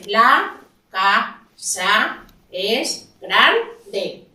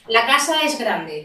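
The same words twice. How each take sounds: First: It is read in separate syllables. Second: It is read smoothly as one phrase.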